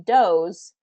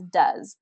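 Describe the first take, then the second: First: The vowel is read from the spelling. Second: The vowel is the usual spoken one. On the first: The speaker calls it wrong. "based on the pronunciation or the spelling, it should be does" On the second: The speaker calls it right. "but we pronounce it as does"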